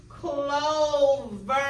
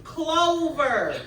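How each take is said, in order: First: "Clover" stretched into CLO and VER; slow "Clover", bringing out the v that opens VER; syllables split apart. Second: "Clover" loud and drawn out, falling at the end; clear model word. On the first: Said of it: "Listen to where that v sound is". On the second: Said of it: "You gotta listen to where". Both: Shown as a demonstration.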